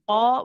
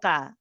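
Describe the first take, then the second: First: The consonant is heavy, with a darkened quality. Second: The consonant is light, without a heavy quality. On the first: The speaker calls it right. "The qaf is heavy. We say qa" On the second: The speaker calls it wrong. "We don't say qa"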